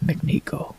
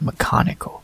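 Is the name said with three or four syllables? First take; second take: three; four. First: The name is said in a shorter, three-syllable form. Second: The name is said in a longer, four-syllable form. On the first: The speaker calls it wrong. "It's not McNico" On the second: The speaker calls it right. "It's Mechanico"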